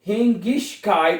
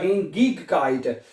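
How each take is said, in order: First: The 'ig' is pronounced with a soft sh-like sound. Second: The 'ig' is pronounced with a hard g sound. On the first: "शीन की आवाज" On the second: "ग्याफ या शीन की दोनों आवाज प्रोनाउंस कर सकते हैं"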